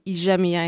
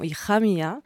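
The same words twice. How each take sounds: First: The j sounds like the French 'j' sound. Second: The j sounds like a throaty, rasping h. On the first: This is the Ladino way of saying it. "j'ai dit Hija mia ... Le J se prononce je" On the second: This is the Spanish way of saying it. "et non Hija mia"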